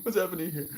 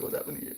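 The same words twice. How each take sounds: First: High-pitched bewildered squeak; high mock bewilderment. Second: Breathless whispered wonder; baffled whisper. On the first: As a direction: squeak it out, amazed. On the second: Retold or imitated. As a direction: whisper it, stunned. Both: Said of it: "That feels like".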